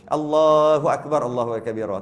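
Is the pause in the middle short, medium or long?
short. There is almost no pause in the middle.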